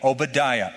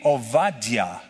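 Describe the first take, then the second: First: The name is said with a 'b' sound. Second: The name is said with a 'v' sound. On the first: This is the usual English form of the name. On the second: This is the original Hebrew form of the name.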